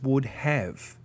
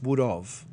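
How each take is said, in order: First: "would have" with a clear, full h in have; teacher's correct "would have"; careful would have. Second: Relaxed "would of" like casual chat. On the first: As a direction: say "would have" as two clean standard words. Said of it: "what we're saying is". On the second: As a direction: slur "would of" as in quick everyday speech. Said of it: "what we think we're saying is". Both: Shown as a demonstration.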